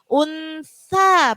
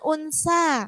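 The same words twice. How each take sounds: First: The middle sound is a soft 'th'. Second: The middle sound is a hissing 's'. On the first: The speaker calls it right. "itu huruf apa? Sa" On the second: The speaker calls it wrong.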